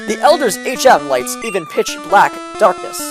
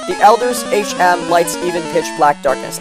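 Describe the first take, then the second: First: Pauses and emphasis fall in odd places. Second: Pauses and emphasis fall in natural places. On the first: The speaker calls it wrong. "I read that very weirdly. Places where I put the emphasis and the pauses really did not make the sentence make a whole lot of sense" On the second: The speaker calls it right. "so I reread it"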